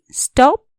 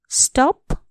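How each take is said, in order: First: Louder, higher command: स्टप; a sharp command voice; firm stop. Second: Said in the usual way. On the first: Shown as a demonstration. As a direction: call out स्टप like an order. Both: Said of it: "teacher repeats the word".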